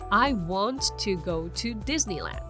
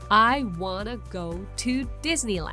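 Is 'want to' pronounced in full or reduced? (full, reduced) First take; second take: full; reduced. First: Want to is said as two full words. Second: Want to is run together as wanna. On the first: "本来だったら" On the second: "かっこよく言うと"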